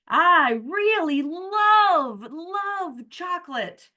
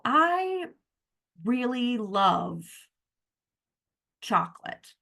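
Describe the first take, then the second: First: The word love is strongly emphasized. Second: The word love gets no special emphasis.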